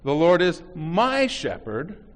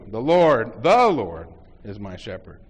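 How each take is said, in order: First: The word "my" is stressed. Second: The word "The" is stressed.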